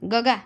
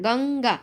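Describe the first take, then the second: First: The first syllable has no nasal sound. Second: The first syllable ends with a nasal sound. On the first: The speaker calls it wrong. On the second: The speaker calls it right.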